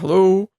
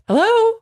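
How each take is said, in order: First: It is said in a low put-on voice. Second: It is said in a high put-on voice. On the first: "they have like this low" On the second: "just like this high, like totally uncharacteristic voice"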